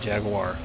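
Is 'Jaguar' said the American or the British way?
American. It is said with an American pronunciation. "the way we say it here in the U S"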